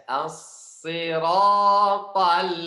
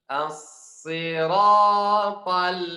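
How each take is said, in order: No difference in how they are said.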